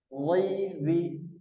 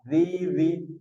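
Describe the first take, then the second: First: The first consonant is thick, unlike the thin second. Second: The first consonant is thin, sounding like the second. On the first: The speaker calls it right. "yang tepat adalah wa ditebalkan, zal tipis" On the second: The speaker calls it wrong. "andai kita baca tidak dengan tebal ... Ini yang salah"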